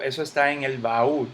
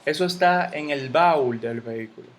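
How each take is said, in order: First: "baúl" said as ba-ÚL, stress on the U; two syllables. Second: "baúl" squeezed into one syllable, BAUL; wrong diphthong. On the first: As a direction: give "baúl" two beats, landing on ÚL. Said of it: "hay dos golpes de voz". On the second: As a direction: run the A and U of "baúl" together as a wrong example. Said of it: "yo no digo". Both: Shown as a demonstration.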